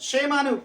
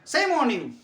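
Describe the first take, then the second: First: The first word begins with a sh sound. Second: The first word begins with a plain s sound. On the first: The speaker calls it right. "यही है pronunciation" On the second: The speaker calls it wrong. "क्यों सेम की शेम?"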